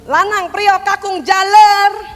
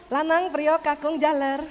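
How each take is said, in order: First: It is called in an angry voice. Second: It is called calmly at normal pitch.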